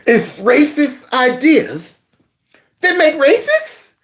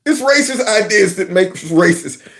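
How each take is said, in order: First: Slow, "racists" swinging up high like a question; mocking question intonation. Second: Said in the usual way. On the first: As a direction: end on a high, puzzled "racists?". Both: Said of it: "said it like it was a question".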